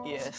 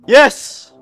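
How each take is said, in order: First: It is said in a sad way. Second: It is said in an angry way.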